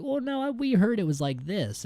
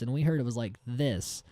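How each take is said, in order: First: High-pitched objection, falling at the end; imitated know-it-all tourist, pitched up; mock contradicting tourist. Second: Second objection in an everyday pitch; imitated tourist, falling at the end; mock contradicting tourist. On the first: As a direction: chime in high to correct the guide. Retelling tourists contradicting the guide. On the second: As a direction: add a correction without raising the pitch.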